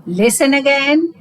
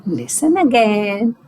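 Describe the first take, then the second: First: "listen again" with a rising, impatient edge; negative way. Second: Positive way. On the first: Teacher to child: "listen again", said as a mild scolding. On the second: Teacher to child: "listen again", said kindly and encouragingly. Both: Shown as a demonstration. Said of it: "there are two ways of saying listen again".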